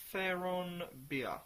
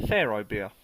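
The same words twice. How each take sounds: First: "Pharaon beer" said slowly and higher, sounded out from the label; reading the label name. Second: "Pharaoh beer" said louder and lower, as the plain English name; plain English translation. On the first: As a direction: drawl out "Pharaon" like reading foreign lettering. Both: Shown as a demonstration. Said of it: "Roughly translated".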